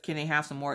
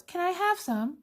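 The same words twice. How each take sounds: First: Said in the usual way. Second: Put-on much higher, pleading small child voice; little kid begging. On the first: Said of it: "instead of". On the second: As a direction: whine it like a kid who wants your food.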